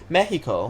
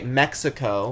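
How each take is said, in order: First: It is said with a Spanish accent. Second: It is said with an American English accent.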